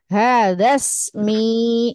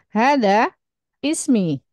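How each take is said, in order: First: The words are joined, dropping the i sound. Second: The words are separated, keeping the i sound. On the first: "maka hadasmi gitu kalau dibaca wasol" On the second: "memang berniat membacanya terputus seperti hada ismi"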